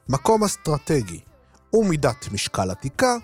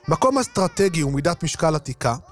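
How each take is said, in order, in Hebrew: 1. המשפט נקרא בקצב איטי יותר. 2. המשפט נקרא בקצב רגיל, מהיר יותר.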